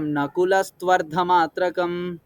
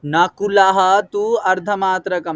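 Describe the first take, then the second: First: Slow नकुलस्त्वर्धमात्रकं said as one joined word; fuse the parts back into one smooth word; joined together. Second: Slow, louder नकुलः तु अर्धमात्रकं with each word set apart; split into words. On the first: Teacher joins the words back into one for the student. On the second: Teacher splits the compound apart for the struggling student. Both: Shown as a demonstration.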